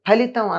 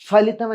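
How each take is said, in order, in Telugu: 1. మొదటి హల్లు గాలి వదిలి పలుకుతారు. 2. మొదటి హల్లు గాలి వదలకుండా పలుకుతారు. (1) "ఫలితం అనకుండా" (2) "అని ఎందుకు అంటున్నాం?"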